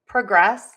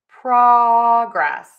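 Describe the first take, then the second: First: The stress is on the second syllable. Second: The stress is on the first syllable. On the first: It is used as a verb. "And now for the verb" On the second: It is used as a noun. "Progress is our noun. True or vowel on syllable number one"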